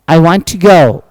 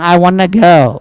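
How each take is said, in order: First: 'Want to' is said as two full words. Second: 'Want to' is blended together into 'wanna'.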